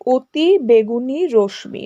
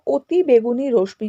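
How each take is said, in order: First: "অতি বেগুনি রশ্মি" slowly, word by word; three whole words in "অতি বেগুনি রশ্মি", spaced apart; split by meaning. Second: Said in the usual way. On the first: Shown as a demonstration. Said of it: "মানে বলে বলতে চাই". ("অতি বেগুনি রশ্মি" অর্থ অনুযায়ী শব্দে ভেঙে) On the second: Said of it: "যদি আমরা অর্থ করে".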